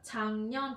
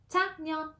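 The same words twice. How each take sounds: First: The first syllable ends in an ng sound. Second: The first syllable ends in a k sound. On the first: The speaker calls it right. "Các bạn nhớ, 작년 chứ không phải là" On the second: The speaker calls it wrong. "chứ không phải là 작년"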